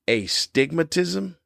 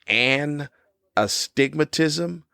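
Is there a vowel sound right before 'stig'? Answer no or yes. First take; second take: no; yes. First: No vowel sound comes right before 'stig'. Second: A vowel sound comes right before 'stig'. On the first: The speaker calls it wrong. "not a stigmatism" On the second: The speaker calls it right. "It's an astigmatism"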